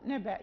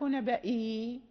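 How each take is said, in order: First: The word ends abruptly on a glottal stop. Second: The word ends with a long 'ee' vowel. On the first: The speaker calls it right. "نقف نبأ" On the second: The speaker calls it wrong. "لا نقف نبائي"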